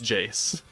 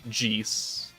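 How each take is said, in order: First: The vowel is an 'ay' sound. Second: The vowel is an 'ee' sound. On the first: This is the name as used in the English dub. "I was raised in the nineties on the English dub. It's Jace" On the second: This is the technically correct original name. "it's like J E E C E"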